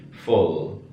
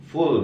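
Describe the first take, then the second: First: 'full' with short lowered u, near fol; correct lax U. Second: 'Full' with tense long 'oo', like fool; high U. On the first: Teacher corrects the reading for students, correct lax U. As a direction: model 'full' slowly with a lax 'uh-oo'. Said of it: "tapi full". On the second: Teacher contrasts the other word for students, high U. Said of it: "ini U tinggi". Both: Shown as a demonstration.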